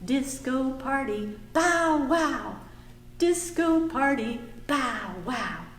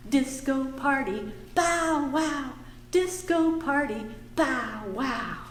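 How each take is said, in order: Both takes have the same delivery.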